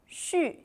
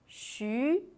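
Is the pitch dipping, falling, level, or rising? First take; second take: falling; rising. First: The pitch falls sharply from high. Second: The pitch rises from mid to high.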